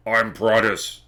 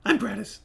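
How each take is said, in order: First: Booming deep character voice; big, deep, drawn-out boom; Prattis. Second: High, cackling character voice; odd little man, pitched way up; Prattis. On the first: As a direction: announce yourself in a long, booming voice. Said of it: "very booming deep voice". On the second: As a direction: introduce yourself in a squeaky cackle. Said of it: "and sort of a cackling". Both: Acted.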